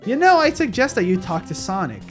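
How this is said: It is voiced as Cream's mom.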